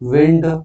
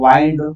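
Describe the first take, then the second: First: The vowel is short, like in tinned. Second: The vowel is long, like in find. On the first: It means moving air. "ವಿಂಡ್ ಉಚ್ಚಾರ change ಅದ" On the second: It means to turn something. "ವೈಂಡ್ ಉಚ್ಚಾರ change ಅದ"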